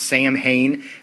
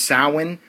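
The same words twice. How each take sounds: First: It is said the way English spelling suggests. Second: It is said the traditional Gaelic way. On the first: This is how most people say it. "most of us are going to pronounce Samhain" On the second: This is the proper pronunciation. "what should be pronounced Samhain or Savin"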